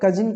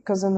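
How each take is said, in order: First: कजिन said as spelt, "ka-zin"; common mispronunciation. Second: कजिन said as "kuh-zun"; correct pronunciation. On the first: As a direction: clear "i" vowel in the second syllable of कजिन. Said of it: "इसे कुछ लोग कजिन पढ़ते हैं". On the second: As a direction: neutral short vowel in the second syllable of कजिन, "kuz-un". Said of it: "ये कजिन होता है". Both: Shown as a demonstration.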